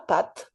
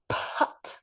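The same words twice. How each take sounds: First: The p has no puff of air after it. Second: The p has a puff of air after it. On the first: The speaker calls it wrong. "C'est pas pat" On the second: The speaker calls it right. "avec une explosion après le P"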